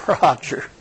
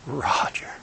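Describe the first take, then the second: First: Tearful Jesus. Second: Breathless whisper of the name; whispered Roger. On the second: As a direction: whisper it through tears. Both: Retold or imitated. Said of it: "with tears running down his face, he says".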